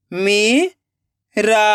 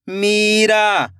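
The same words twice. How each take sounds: First: Meera split into मी, long pause, रा; rising मी, then रा alone; syllable by syllable. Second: Meera joined as one slow word; blended word. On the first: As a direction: sound out Meera very slowly in two parts. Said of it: "एक एक अक्षर का उच्चारण करना है". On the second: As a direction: read Meera whole, falling at the end. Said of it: "खींच के पढ़ना है". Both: Shown as a demonstration.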